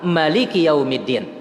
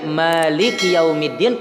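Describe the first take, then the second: First: The first vowel of maliki is short. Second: The first vowel of maliki is long. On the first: The reading has no extra letter. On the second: The reading has one extra letter.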